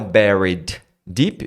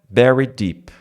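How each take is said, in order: First: Both d sounds are pronounced separately. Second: The first d is dropped, linking the words. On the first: "buried termina com D... A próxima começa com D" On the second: "Dois sons que competem, você tira o primeiro"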